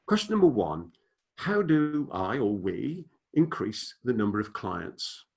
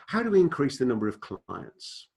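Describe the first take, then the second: First: Slow and deliberate, each word laid out; said slowly. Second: Said in the usual way. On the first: Shown as a demonstration. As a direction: read the question slowly so it sinks in. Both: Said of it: "and I'll say them slowly".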